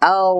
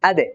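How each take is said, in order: First: The consonant is drawn out smoothly without bounce. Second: The consonant ends with a quick bounce. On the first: The speaker calls it right. "উপরের দিকে কলকলা হয় না" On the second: The speaker calls it wrong. "জিহ্বার আগা থেকে যখন আদায় করা হয় তখন কিন্তু কলকলা হয়"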